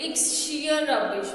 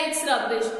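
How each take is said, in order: First: Slow, with "sheer" as the strongest word; stress on sheer. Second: Said in the usual way. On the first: Shown as a demonstration. Teacher showing students the stress on "sheer". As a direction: lean hard on "sheer" to show the emphasis. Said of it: "sheer word के ऊपर". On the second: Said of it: "मतलब जोर दिया गया है".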